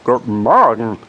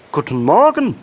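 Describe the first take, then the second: First: Louder greeting from a second frog; pleased reply. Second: High, loud, happy frog greeting; cheerful call. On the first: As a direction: return the greeting, pleased and emphatic. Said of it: "erwiderte der andere erfreut". (erfreuter Gegengruß eines zweiten Frosches) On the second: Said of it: "rief er fröhlich". (fröhlicher, hoher Froschruf) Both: A narrator's reading.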